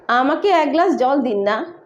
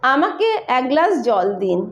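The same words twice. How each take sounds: First: ना added with a gentle questioning lift; sweet request tone. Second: Said in the usual way. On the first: Shown as a demonstration. Bengali teacher showing the sweet request form. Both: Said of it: "कौन सा मिठास लग रहा है".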